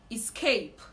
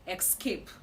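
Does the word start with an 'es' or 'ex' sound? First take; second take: es; ex. First: The word begins with an es sound. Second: The word begins with an ex sound. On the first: The speaker calls it right. "the right to pronounce this word is escape. it is not X, it is actually S" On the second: The speaker calls it wrong. "This word is commonly pronounced escape"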